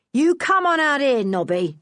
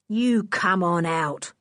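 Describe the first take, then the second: First: Higher, louder gruff summons; rough man calling out. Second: Slow, menacing order; threatening. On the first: Lou ordering Nobby out of the tunnel, gruff call. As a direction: call the boy out like a bully. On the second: Lou threatening the children in the tunnel, slow menace. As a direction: lean on each word of You come on out. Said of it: "said Lou threateningly". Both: Acted.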